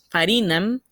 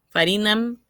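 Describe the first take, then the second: No difference in how they are said.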